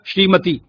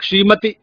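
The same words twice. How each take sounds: First: The final vowel is a long ee. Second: The final vowel is a short i. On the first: The speaker calls it right. "मानक" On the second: The speaker calls it wrong. "ये ह्रस्व ई का प्रयोग कर देते हैं"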